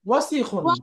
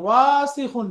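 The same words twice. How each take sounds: First: The vowels in the word are kept short. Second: A vowel in the word is drawn out long. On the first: The speaker calls it right. "কি হবে?" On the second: The speaker calls it wrong. "টান দিয়ে পড়া যাবে না, ওয়াসিখুন না"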